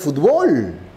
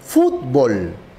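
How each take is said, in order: First: The stress is on the last syllable. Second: The stress is on the first syllable. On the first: This is how Mexican speakers say it. "Para él es palabra aguda que termina en L" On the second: This is how the speaker's own region says it. "Es palabra grave que termina en L"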